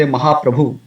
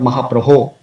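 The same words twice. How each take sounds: First: "Mahaprabhu" ending in an oo sound; casual "Mahaprabhu" with final u; common mispronunciation. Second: "Mahaprabho" ending in a long oh; careful "Mahaprabho" with final o; correct final o. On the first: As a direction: end "Mahaprabhu" on -bhu. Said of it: "Often you would say Mahaprabhu". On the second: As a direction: end "Mahaprabho" on -bho, not -bhu. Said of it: "instead of Mahaprabho". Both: Shown as a demonstration.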